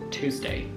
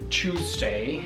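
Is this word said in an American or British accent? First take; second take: American; British. First: It is said with an American accent. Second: It is said with a British accent. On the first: "Americans say Tuesday" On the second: "give you a sample of what my British accent level is"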